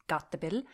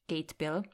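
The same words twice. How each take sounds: First: The name is pronounced with Norwegian sounds. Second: The name is pronounced with English sounds. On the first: "in Norwegian it's pronounced" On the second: "as many people would say in English or pronounce it in English"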